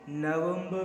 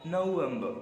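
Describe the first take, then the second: First: नवंबर with short 'uh', 'nuh-VEM-buh'; short unrounded first vowel in नवंबर; alternative pronunciation. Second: नवंबर as 'no-VEM-buh', round o first; English pronunciation. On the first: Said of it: "नवंबर भी पढ़ सकते हैं या". (नवंबर को छोटे 'अ' से 'नवेंब' बोलें) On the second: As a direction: open नवंबर on 'noh', drop final r. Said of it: "पढ़ सकते हैं या". (नवंबर को 'नोवेंब' बोलें, 'र' silent) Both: Shown as a demonstration.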